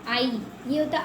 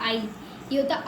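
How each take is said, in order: No difference in how they are said.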